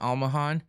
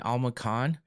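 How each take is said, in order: First: The middle consonant is a soft h sound. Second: The middle consonant is a hard k sound. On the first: It is how the name is really said. The speaker calls it right. "they say it's Almahan" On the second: It is read from the spelling. The speaker calls it wrong. "It's hard not to say Almacan"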